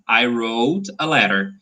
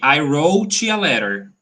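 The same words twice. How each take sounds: First: The final T in 'wrote' is weak. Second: The final T in 'wrote' is strong. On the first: The speaker calls it right. "The T sound is very, very weak" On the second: The speaker calls it wrong. "We don't say wrote"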